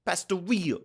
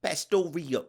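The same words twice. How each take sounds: First: Pastoria said higher as pas-to-RI-o; hammed-up Italian Pastoria; Italian-ish accent. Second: Pastoria said as pas-to-RI-o, Italian flavour; mock Italian Pastoria; Italian-ish accent. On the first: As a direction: lean harder into the Italian Pastoria. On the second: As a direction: roll Pastoria like an Italian word, ending in o. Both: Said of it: "I'm going back to Italian".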